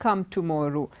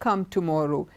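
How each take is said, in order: No difference in how they are said.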